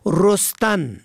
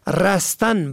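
First: رستن with an "o" first vowel, "rostan"; rounded "o" after the r in رستن; damma on first letter. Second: رستن with an "a" first vowel, "rastan"; fatha on first letter. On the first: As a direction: say رستن as ROS-tan. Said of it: "به ضم اول". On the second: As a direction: say رستن as RAS-tan. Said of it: "به فتح اول". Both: Shown as a demonstration.

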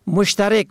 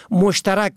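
First: مشترک as "mushtarek"; short "e" in the last syllable of مشترک; kasra on fourth letter. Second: مشترک as "mushtarak"; fatha on fourth letter. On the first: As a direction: say مشترک as mush-ta-REK. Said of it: "به کسر چهارم". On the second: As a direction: open "a" in the last syllable of مشترک. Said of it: "به فتح چهارم". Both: Shown as a demonstration.

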